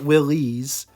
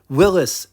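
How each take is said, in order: First: The name is said ending like 'Willys'. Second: The name is said ending like 'Willis'. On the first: The speaker calls it wrong. "not Willys" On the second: The speaker calls it right. "Willis is the correct way to pronounce the brand"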